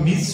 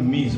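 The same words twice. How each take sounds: First: The word ends with a hissing s sound. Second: The word ends with a buzzing z sound. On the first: The speaker calls it wrong. "মিস এর উচ্চারণ মিস নয়" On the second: The speaker calls it right. "আমরা করব উচ্চারণ মিস, বর্গীয় জ"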